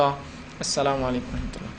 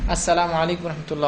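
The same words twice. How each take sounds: First: Slow, softer imam's closing salam; quiet, unhurried prayer-ending salaam; salam drawn out slowly. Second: Said in the usual way. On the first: Shown as a demonstration. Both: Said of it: "یہ اس کا بہرحال طریقہ ہے".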